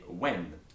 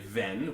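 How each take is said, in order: First: The word begins with a W sound. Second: The word begins with a V sound. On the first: The speaker calls it right. "we say when" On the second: The speaker calls it wrong. "we don't say ven"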